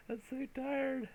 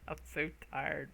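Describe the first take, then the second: First: Slow, high, drawn-out tired moan; tired whine. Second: Said in the usual way. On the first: Acted. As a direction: whine it like you're worn out.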